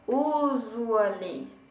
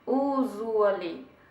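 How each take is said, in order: No difference in how they are said.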